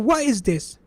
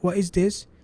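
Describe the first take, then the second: First: It is said with amazement. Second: It is said as a plain question.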